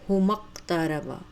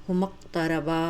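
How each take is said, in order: No difference in how they are said.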